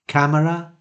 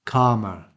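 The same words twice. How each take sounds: First: CAMERA with the a of cat; short front vowel. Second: CALMER with a long ah as in arm; long back vowel. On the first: Teacher contrasting two phonemes, short front vowel. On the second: Teacher contrasting two phonemes, long back vowel. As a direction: say CALMER as KAH-muh. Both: Shown as a demonstration. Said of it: "similar pronunciation, but of course, two different phonemes".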